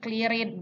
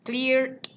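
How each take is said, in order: First: The ending is an extra syllable, like 'id'. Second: The ending is a plain 'd' sound. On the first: The speaker calls it wrong. "bukan ... clear it" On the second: The speaker calls it right. "Ini yang akhirannya D"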